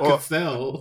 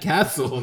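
First: The name does not sound like castle. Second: The name sounds like the word castle. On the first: The speaker calls it wrong. "not Cassell" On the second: The speaker calls it right. "his name is pronounced Matt Castle"

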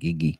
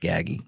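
First: The name is said as Gigi. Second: The name is said as Gaggy. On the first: The speaker calls it wrong. "not Gigi" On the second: The speaker calls it right. "That's Gaggy"

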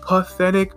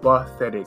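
First: The word begins with a p sound. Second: The word begins with a b sound. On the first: The speaker calls it wrong. "Not pathetic, ... So it's not puh" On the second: The speaker calls it right. "but pathetic. ... but buh"

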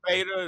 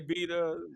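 First: It is said with an American accent. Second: It is said with a British accent.

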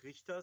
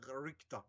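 First: It is said with a normal German accent. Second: It is said with a heavy English accent.

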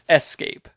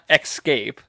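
First: The word begins with an 'ess' sound. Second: The word begins with an 'ex' sound. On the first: The speaker calls it right. "It's escape" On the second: The speaker calls it wrong. "It's not escape"

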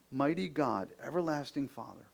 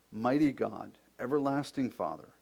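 The two takes are said the same way.

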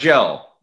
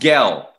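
First: It starts with a soft J sound. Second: It starts with a hard G sound. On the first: The speaker calls it wrong. "It's not gel, no" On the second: The speaker calls it right. "It's Gel"

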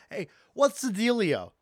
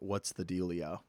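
First: It is said in a lively party voice. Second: It is said in a flat monotone.

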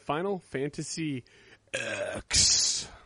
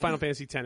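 First: The last word is said as the letter ex. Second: The last word is said as the number ten. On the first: The speaker calls it wrong. "everybody heard me say it in the beginning and they're like, he's fucking it up. Yes, I did on purpose" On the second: The speaker calls it right. "It is Final Fantasy 10"

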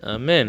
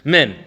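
First: The final n sound is left off. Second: The opening ah sound is left off. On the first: The word is rushed and not finished. "He didn't say the nun" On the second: The word is rushed and not started properly. "He doesn't say the ah"

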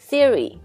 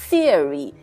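First: The stress is on the first syllable. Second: The stress is on the second syllable. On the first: The speaker calls it right. "But it should be" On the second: The speaker calls it wrong. "是不是应该放在那个R 上面重音，就变成theory"

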